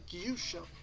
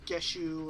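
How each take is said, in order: First: The name begins with a 'gyoo' sound. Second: The name begins with a 'geh' sound. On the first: The owner of the name says it this way. "I pronounce it Gyusho" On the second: Other people guessed it this way. "they'd say Gusho or Geshu or whatever"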